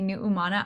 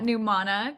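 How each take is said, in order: First: The name is said with its Hawaiian sounds. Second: The name is said in a simplified English way. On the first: This is the original form of the name. "the Hawaiian pronunciation" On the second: This form is easier for people to say. "I just left it at Numana because, you know, it's easy to say"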